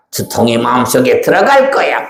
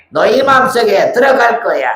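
First: Sly demon threat. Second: Much higher, teasing threat; high menacing demon. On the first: Demon threatens to enter heart. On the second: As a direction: loom over them with a shrill threat. Demon repeats threat to children. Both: Acted.

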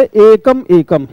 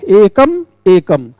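First: Said in the usual way. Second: "एकम एकम" said slowly, each एकम set apart clearly; slow deliberate repetition. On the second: Shown as a demonstration. Teacher showing students the doubled word, slow and deliberate. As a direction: spell out एकम एकम slowly for the class. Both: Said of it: "एक शब्द को हमने दो बार कहा".

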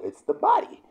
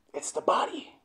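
First: High-pitched, emphatic reveal; voiced high, pitched far above normal; emphatic answer. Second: Hushed, unvoiced whisper; soft breath-only emphatic whisper; whispered repeat. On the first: Answers his own question, then repeats. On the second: Same answer repeated in whisper. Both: Real, not acted.

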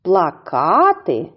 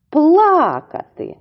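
First: Плакати slowly with the weight on КА; slow pla-KA-ty; stress on second syllable. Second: Плакати with a high, loud, long ПЛА; loud slow PLAA-ka-ty; stress on first syllable. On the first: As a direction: lift the middle ка of Плакати. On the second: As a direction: punch пла high, then drop in плакати. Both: Shown as a demonstration. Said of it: "Тож іще раз повторюємо".

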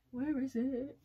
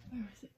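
First: Higher, louder repeat of Where is it; louder searching call. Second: Said in the usual way. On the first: Real, not acted.

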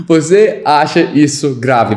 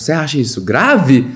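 First: "Você acha" held up, "grave" falling away; statement-like tune, down on "grave"; one of two intonations. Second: Quick question tune, "grave" jumping up; question intonation. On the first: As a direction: imitate the line, letting "grave" drop. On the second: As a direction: ask it with a big pitch peak on "grave". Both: Shown as a demonstration.

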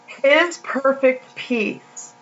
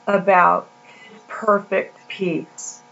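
First: "His perfect peace" drawn out very slowly, each word weighted, stress on His; slow emphatic repeat. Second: Said in the usual way. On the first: Shown as a demonstration.

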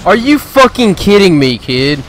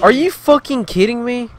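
First: High, loud raging shout at the screen; furious yell. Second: High, loud outraged shout; furious yell. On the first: Gamer raging at a player who noob-tubed him, furious yell. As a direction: scream it out at the cheater. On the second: Gamer raging at an enemy who chased him, outraged shout. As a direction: blast it at the enemy in disbelief. Raging again after getting attacked. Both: Real, not acted.

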